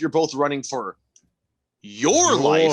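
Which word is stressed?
your. The word your is stressed.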